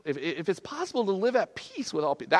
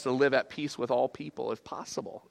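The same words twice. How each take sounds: First: Higher-pitched, questioning re-reading of the verse; mock-daunted quoting; doubtful repeat. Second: Said in the usual way. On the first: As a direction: balk at the words as you repeat them.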